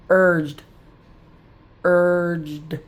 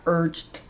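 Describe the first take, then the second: First: Said in the usual way. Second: "urged" ending in a T sound, urt; wrong T ending. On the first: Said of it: "Yep, it's just a D". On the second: Shown as a demonstration. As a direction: say "urged" with a final T instead of D. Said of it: "it's not urged".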